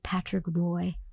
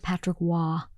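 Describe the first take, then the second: First: The surname is said as 'roy'. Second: The surname is said as 'wah'. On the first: The speaker calls it wrong. "I would say like Patrick Roy" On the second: The speaker calls it right. "instead of Patrick Waugh"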